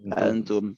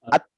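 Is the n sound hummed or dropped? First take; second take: hummed; dropped. First: The n is hidden with a nasal hum. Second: The n is dropped with no nasal hum. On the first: The speaker calls it right. "nun dan ta bersatu" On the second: The speaker calls it wrong. "Kalau misalnya dibaca ta langsung kan dia atum"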